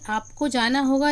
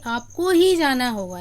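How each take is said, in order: First: Said in the usual way. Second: ही pressed firmly; teacher stressing ही as a demo. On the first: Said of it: "लेकिन हम ये कहेंगे". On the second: Shown as a demonstration. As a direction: put weight on ही, you and nobody else. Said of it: "आप पर विशेष बल है".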